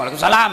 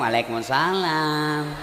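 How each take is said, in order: First: It is said in a firm, curt voice. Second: It is said in a soft, languid, drawn-out voice.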